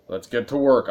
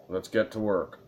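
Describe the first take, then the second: First: Louder "Let's get to work." punched on "work"; pointed eagerness. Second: Said in the usual way. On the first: Shown as a demonstration. Streamer answering a character to end the scene, pushy. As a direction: hurry the game along. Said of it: "answering it with the most, like, let's get the fucking work".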